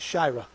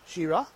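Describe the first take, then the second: First: The first vowel is an 'eye' sound. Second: The first vowel is not an 'eye' sound. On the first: The speaker calls it right. "Put my little line over it showing it's an eye" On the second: The speaker calls it wrong. "And I'm saying that wrong"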